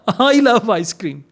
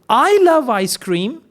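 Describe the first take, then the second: First: It is said in a sarcastic way. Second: It is said like a question. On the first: The speaker means the opposite. "Sarcastic one" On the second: The speaker is asking. "it's a question"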